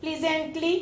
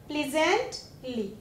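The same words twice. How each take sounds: First: Said in the usual way. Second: प्लीजेंटली softly and slowly, pause before ली; broken into parts. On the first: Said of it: "फिर एक word यहाँ पे बनेगा". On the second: Shown as a demonstration. Teacher showing children the new word, प्लीजेंटली slowly in two parts. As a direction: split प्लीजेंटली into "pleasant" and "lee". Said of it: "बन गया ना बच्चों ये word".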